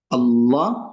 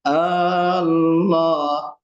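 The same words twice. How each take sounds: First: The first vowel is short. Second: The first vowel is drawn out long. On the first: It is the name of the God who is worshipped. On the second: It becomes an oath or a question.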